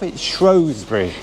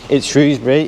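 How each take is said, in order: First: The name is said the way locals say it. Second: The name is said the way outsiders say it. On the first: The speaker is from the town itself. "If you're from Shrewsbury itself" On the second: The speaker is from outside the town. "if you're from outside Shrews Shrewsbury"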